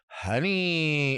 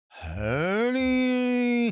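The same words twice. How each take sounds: First: It is said fairly crisply and plainly. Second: It is said in a lazier, drawn-out way.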